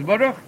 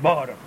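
First: Baruch as bo-RUCH, stress on the last syllable; bo-RUCH, rising on the ending; correct final stress. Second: Baruch as BO-ruch, first syllable leaned on; BOH-ruch with the accent too early; wrong first-syllable stress. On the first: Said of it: "The word is Baruch". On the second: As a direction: lean on the BA of Baruch, let RUCH fall. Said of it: "there's no word Baruch". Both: Shown as a demonstration.

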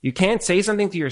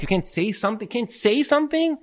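First: Said in the usual way. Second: Can't say something pitched much higher, pressed; emphatic repeat. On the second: Shown as a demonstration. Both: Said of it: "how you're saying it".

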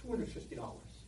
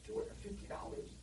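First: Said in the usual way. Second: Breathy, much higher stunned question; shocked disbelief. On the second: Retold or imitated. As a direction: gasp the price back in disbelief. Father shocked at price.

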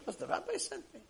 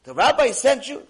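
First: High, small soft voice; acted meek reply. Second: High, loud question; acted disbelief. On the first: Patient confirming the rabbi sent him, high and meek. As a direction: answer softly, pitched way up. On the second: Truck driver questioning the patient about the rabbi, incredulous. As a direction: ask it loudly, incredulous. Man astonished at referral.

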